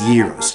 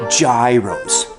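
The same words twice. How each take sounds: First: The word begins with a Y sound. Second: The word begins with a J sound. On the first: The speaker calls it wrong. "like you do. Okay, it rhymes with heroes" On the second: The speaker calls it right. "like I do"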